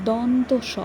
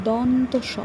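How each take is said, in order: The two takes are said the same way.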